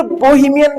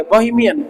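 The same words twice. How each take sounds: First: "बोहेमियन" with a full long "bo" at the front; wrong pronunciation. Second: "बोहेमियन" with a lighter, shorter first vowel; corrected pronunciation. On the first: Teacher showing the form to avoid, "बोहेमियन" with full "bo". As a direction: say "बोहेमियन" leaning on a round "bo". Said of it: "बोहेमियन भी नहीं है". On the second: Teacher modelling it for students to repeat, "बोहेमियन" with light first vowel. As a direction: say "बोहेमियन" joined up, easing off the "bo". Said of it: "ये ओ वो वाला लगे". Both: Shown as a demonstration.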